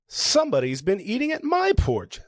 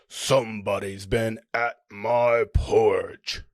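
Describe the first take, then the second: First: It is said in a medium, moderate voice. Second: It is said in a deep, gruff voice.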